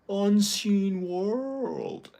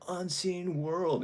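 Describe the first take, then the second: First: It mimics Psyche exaggerating his American accent. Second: It is said in his own American voice.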